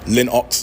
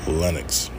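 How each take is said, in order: First: The word is said with heavy, forced emphasis. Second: The word is said smoothly and lightly. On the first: The speaker calls it wrong. "putting too much emphasis in it" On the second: The speaker calls it right. "Just let it roll off the tongue"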